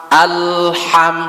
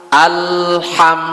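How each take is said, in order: The two takes are said the same way.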